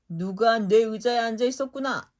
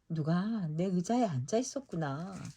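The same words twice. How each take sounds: First: It is shouted in a big, booming voice. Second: It is said in a medium, ordinary voice. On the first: The biggest bear is speaking. "쩌렁쩌렁한 목소리를 외쳤어요" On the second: The middle-sized bear is speaking. "크지도 작지도 않은 보통 크기의 목소리로 말했어요"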